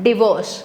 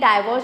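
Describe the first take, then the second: First: The first syllable sounds like 'dih'. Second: The first syllable sounds like 'dye'. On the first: The speaker calls it right. "It is डिवोर्स" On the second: The speaker calls it wrong. "This is not exactly डाइवोर्स"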